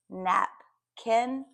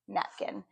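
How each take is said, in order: First: "napkin" slowly split as nap, kin; syllable by syllable. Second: Said in the usual way. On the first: Shown as a demonstration. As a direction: say "napkin" in two separate chunks. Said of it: "put those two syllables together". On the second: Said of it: "I have the whole word".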